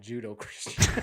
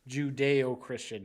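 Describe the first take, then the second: First: The first word is said as Ju-do. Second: The first word is said as Ju-de-o. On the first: The speaker calls it wrong. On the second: The speaker calls it right.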